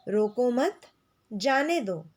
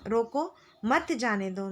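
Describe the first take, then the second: First: रोको मत joined and rising, break, falling जाने दो; pause after मत. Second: Slower रोको, clear break, then मत जाने दो; pause after रोको. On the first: Teacher shows the comma letting someone go, pausing after मत. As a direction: keep रोको मत together, pause, then जाने दो. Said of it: "रोको मत के बाद अल्प विराम". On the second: Teacher shows the comma stopping someone, pausing after रोको. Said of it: "रोको के बाद अल्प विराम के प्रयोग से". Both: Shown as a demonstration.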